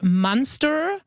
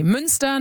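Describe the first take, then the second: First: Münster anglicized as "Munster", without the German ü; Saskatchewan English pronunciation. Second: Münster said the German way, with a rounded ü; German pronunciation. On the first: Host shows what people in Saskatchewan say, anglicized pronunciation "Munster". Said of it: "people started talking about". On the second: Host recalls place names from growing up in Germany, German pronunciation of Münster. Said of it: "I knew how to pronounce these words". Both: Shown as a demonstration.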